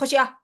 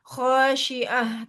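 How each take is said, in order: First: The word is said quickly with vowels cut short. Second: The word is said unhurried with vowels held fully. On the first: The speaker calls it wrong. "misalnya mau dicepetin ya gimana maksudnya? Eee, khosyah gitu kan nggak bisa" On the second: The speaker calls it right. "Jadi, eee, khosyiah gitu"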